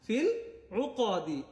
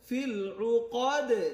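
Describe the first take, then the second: First: The last word ends with an 'i' vowel. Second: The last word ends on a bounced 'd' sound. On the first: The reader continues without stopping. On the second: The reader stops at this word.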